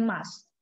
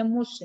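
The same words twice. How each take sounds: First: "must" with a clear final t; "must" as the teacher's model reading; correct pronunciation. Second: "mus" with the final t dropped; "mus" as the wrong reading, no t at the end; wrong pronunciation. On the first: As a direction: say "must" with a short u and a crisp t. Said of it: "Bacanya must". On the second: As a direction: say "mus" ending on a bare s. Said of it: "Nggak boleh bacanya mus ya". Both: Shown as a demonstration.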